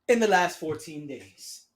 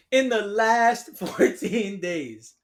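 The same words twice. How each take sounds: First: Said in the usual way. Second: Slow repeat of "In the last fourteen days", laughing through "last"; laughing in disbelief. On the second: Real, not acted.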